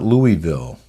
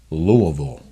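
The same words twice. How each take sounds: First: The city name gets a non-local pronunciation. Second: The city name gets the local pronunciation. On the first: The speaker calls it wrong. "It's not Louisville" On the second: The speaker calls it right. "If you're a local or if you want to sound like one, it's Louisville"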